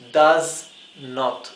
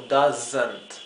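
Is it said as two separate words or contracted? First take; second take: two words; contracted. First: It is said as two full separate words. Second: It is said as one contracted word. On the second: "se juntó esto y en lugar de la O se agregó el apóstrofe"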